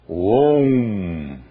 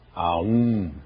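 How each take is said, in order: First: The A and U merge into one long O. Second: The A and U are said as separate sounds. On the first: The speaker calls it right. "não se pronunciam estas letras separadamente. Pronuncia-se Om" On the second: The speaker calls it wrong. "muita gente pronuncia a um"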